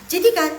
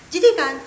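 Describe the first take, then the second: No difference in how they are said.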